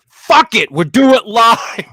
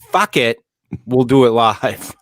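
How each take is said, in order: First: It is said with more force and intensity. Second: It is said in a plain, calm way.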